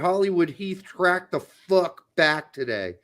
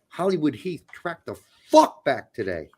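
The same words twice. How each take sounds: First: It is read in a plain, flat way. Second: It is read with strong, forceful conviction. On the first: The speaker calls it wrong. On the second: The speaker calls it right.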